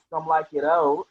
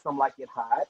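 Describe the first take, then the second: First: The last word sounds like oat, with no h. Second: The last word sounds like hot, with an h. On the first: It follows the French fashion term. "So it's actually pronounced Some Like It Old" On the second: It echoes the film title as a play on words. "I want you to see it and say Some Like It Hot"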